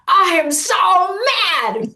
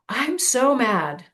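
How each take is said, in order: First: It is said angrily, with a raised voice. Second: It is said flatly, without anger.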